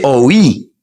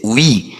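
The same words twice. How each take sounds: First: «oh oui» said as two separate vowels, o then i; Spanish-style «oh oui» with split vowels. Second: «oui» said as one smooth glide, wi; French oui. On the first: Teacher showing learners the Spanish «oh oui». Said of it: "Parce qu'en espagnol". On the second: Teacher showing learners the French «oui». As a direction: clean single-syllable «oui». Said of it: "Mais en français". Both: Shown as a demonstration.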